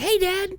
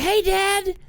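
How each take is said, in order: First: Put-on high, sweet child greeting; little girl voice. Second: Put-on high, bored child greeting; flat little girl voice. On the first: Daughter greeting dad on FaceTime, high and sweet. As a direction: chirp it like a small daughter. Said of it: "she's like". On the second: Younger daughter barely greeting dad, high and bored. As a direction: say it like a kid who doesn't care. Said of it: "she was like".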